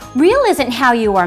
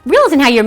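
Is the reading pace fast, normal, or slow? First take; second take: normal; fast. First: The words are read at a moderate pace. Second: The words are read very quickly.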